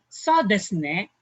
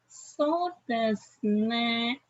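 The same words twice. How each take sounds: First: It is said in an agreeing tone. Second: It is said in a doubtful tone. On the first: The speaker agrees. "so it means you're agreeing" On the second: The speaker doubts or disagrees. "it means you are doubting or not agreeing"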